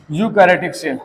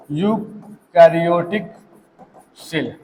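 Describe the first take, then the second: First: Said in the usual way. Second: eukaryotic stretched slowly, then सेल dropped soft; slow, drawn out. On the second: Shown as a demonstration. Teacher slowly dictating eukaryotic to students, drawn out. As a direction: drag out eukaryotic for the class to catch.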